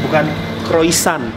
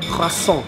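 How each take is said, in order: First: The r is a plain, non-throaty sound. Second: The r is a throaty, French-style sound. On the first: The speaker calls it wrong. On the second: The speaker calls it right. "R-nya harus cadel"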